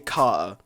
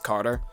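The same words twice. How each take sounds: First: The name is said in a non-American accent. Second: The name is said in an American accent. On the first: The speaker calls it wrong. "I can't say Carter. It sounds weird" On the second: The speaker calls it right. "I have to say it like an American"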